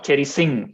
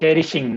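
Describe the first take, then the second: First: The middle consonant is an 's' sound. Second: The middle consonant is a 'sh' sound. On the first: The speaker calls it wrong. "not cherishing" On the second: The speaker calls it right. "cherishing, sh, cherishing"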